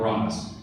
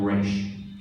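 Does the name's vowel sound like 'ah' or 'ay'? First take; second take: ah; ay. First: The name is said with an 'ah' vowel. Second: The name is said with an 'ay' vowel. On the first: The speaker is an outsider insulting him. "If you want to insult Roz, Reich, you call him Roz. If you're not part of the League" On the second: The speaker belongs to his League. "if you're part of the League, you call him Reich"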